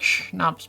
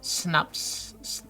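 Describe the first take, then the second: First: The word begins with an sh sound. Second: The word begins with a plain s sound. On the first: This is how the speaker prefers to say it. "I would say it's like schnapps because it's like the sh sounds" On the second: This is how most Americans say it. "Most Americans say like"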